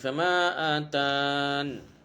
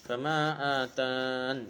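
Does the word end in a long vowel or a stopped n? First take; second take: stopped n; stopped n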